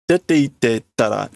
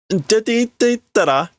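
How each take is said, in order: First: Said in the usual way. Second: Put-on much higher, frustrated girl's voice. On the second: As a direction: snap at him to leave, high. Girl frustrated.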